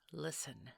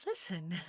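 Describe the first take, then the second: First: Said in the usual way. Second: Listen said sharp and loud; firm louder command. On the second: Acted. Mrs Claus demanding the child's attention, sharp and loud. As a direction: snap Listen to grab attention.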